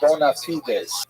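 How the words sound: It is pronounced the Latin way. "what we would call in Latin the term bona fides"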